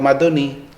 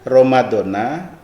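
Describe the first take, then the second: First: The word ends with an 'i' vowel. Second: The word ends with an 'a' vowel. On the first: The speaker calls it right. "yang benar ya mengucapkannya adalah ... ramadhani" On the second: The speaker calls it wrong. "Ramadana atau Ramadoni?"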